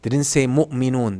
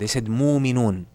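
First: The word has a full glottal stop inside. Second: The glottal stop is softened away. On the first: "They didn't say" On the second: "They said ... Al-Hamza would be softened or flattened out"

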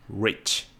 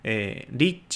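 First: It starts with a rounded, pulled-back English R. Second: It is said with Japanese katakana sounds. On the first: The speaker calls it right. "口の形を小さい「う」にして" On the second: The speaker calls it wrong. "リッチじゃなくて"

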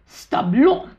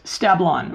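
First: It is said with a French accent. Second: It is said with a plain English accent.

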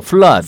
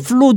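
First: The vowel is a short 'uh' sound. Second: The vowel is a long 'oo' sound. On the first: The speaker calls it right. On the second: The speaker calls it wrong.

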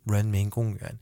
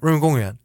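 First: The phrase is said slowly, syllable by syllable. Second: The phrase is said quickly as one unit. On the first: The speaker is a beginner learner. "I've just started to learn Chinese" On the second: The speaker is a local. "if I'm like a local"

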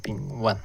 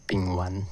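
First: The second syllable has a non-rising tone. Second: The second syllable has a rising tone. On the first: The speaker calls it wrong. "很多人会把它念成丙烷" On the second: The speaker calls it right. "其实应该是二声啊"

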